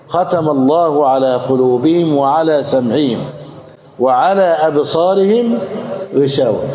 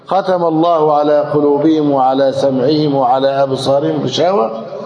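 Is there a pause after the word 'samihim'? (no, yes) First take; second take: yes; no. First: There is a pause after the word samihim. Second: There is no pause after the word samihim. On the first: The veil covers only the eyes. The speaker calls it right. "لذلك تقف هنا" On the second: The veil covers the heart, hearing and eyes. The speaker calls it wrong. "لكن لو قلت"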